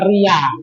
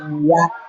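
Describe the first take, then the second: First: The word ends openly on the vowel. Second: The word ends with a final k sound. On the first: The speaker calls it wrong. "bukan ria" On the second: The speaker calls it right. "Jadi bacanya riak ya"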